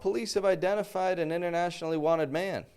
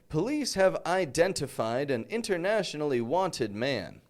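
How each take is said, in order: First: The T sounds after N are dropped. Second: The T sounds after N are clearly pronounced. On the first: It is said casually, as one would speak naturally. "That's not how I would say it. I'd say" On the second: It is read formally, like a news announcement. "the news announcer pronounces the T's in N T combination words"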